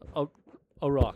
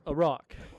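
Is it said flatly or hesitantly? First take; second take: hesitantly; flatly. First: It is said hesitantly and unsurely. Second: It is said flatly and bluntly.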